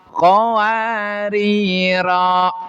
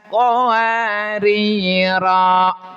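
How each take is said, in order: The two takes are said the same way.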